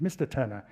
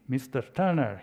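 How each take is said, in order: First: Said in the usual way. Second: Mister Turner with a faint mock Spanish accent; half-hearted try at a Spanish accent; attempted Spanish accent. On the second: Argentine ambassador addressing the British negotiator, attempted Spanish accent. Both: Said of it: "I can't do a Spanish accent".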